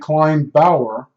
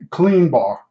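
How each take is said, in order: First: It sounds like 'kline' then 'bower', two syllables. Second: It sounds like 'clean' then a single-syllable 'bar'. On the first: This is how an older relative said it. "my grandmother used to say Klein Bauer"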